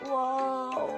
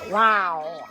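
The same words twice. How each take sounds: First: It is said in a sad way. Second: It is said in an angry way.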